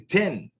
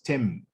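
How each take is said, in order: First: The word ends with an n sound. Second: The word ends with an m sound.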